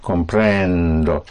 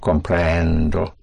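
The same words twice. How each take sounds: First: Comprendo slow, stress pushed down on prend; slow model word. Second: Comprendo slow, push down on prend, surface on O; slow model word. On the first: Teacher modeling comprendo for the student, stress on prend. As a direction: lean on prend, land on O. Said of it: "Push down". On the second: Teacher repeating Comprendo to show the stress on prend. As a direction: press prend, then open to O. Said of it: "and you surface on O". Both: Shown as a demonstration.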